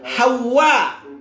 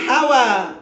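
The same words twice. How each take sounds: First: The w is doubled, ending in a glottal stop. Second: The w is single, without a final glottal stop. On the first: It is the name of Adam's wife. The speaker calls it right. "Wawnya ditasdid. Kemudian ada alif, kemudian ada hamzah. Jadi bacanya itu Hawa" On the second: It means worldly desire. The speaker calls it wrong. "bukan Hawa. Kalau Hawa pakai ha, Hawa itu hawa nafsu"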